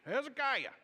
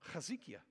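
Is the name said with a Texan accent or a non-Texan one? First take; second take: Texan; non-Texan. First: The name is shouted in an East Texas accent. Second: The name is said without a Texan accent. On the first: This is the speaker's home-region way of saying it. The speaker calls it wrong. "the East Texas Hezekiah, okay? We're like, you shout it from the back of a horse" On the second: This is how the name should be said. The speaker calls it right. "We say it different"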